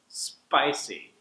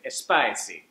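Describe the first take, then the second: First: It starts directly with the SP sound. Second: It starts with an added eh vowel. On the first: The speaker calls it right. "drop that first syllable and just say sp" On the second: The speaker calls it wrong. "you might say spicy"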